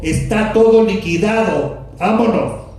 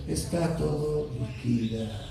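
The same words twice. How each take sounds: First: Louder and higher, decisive; proud victory shout; triumphant declaration. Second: Much softer, limp, no energy; quiet deflated take; mock meek mumble. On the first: Retold or imitated. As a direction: call it out as a victor leaving the field. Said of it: "Él dijo". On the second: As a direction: say it as a feeble resignation. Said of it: "No creo que haya dicho".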